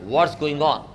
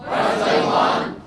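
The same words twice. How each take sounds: First: Said in the usual way. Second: Slow unvoiced stretched greeting; drawn-out breathy whisper. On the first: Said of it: "हमने बोला". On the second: Shown as a demonstration. Teacher showing the class a drawn-out whispered greeting. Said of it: "बोलो".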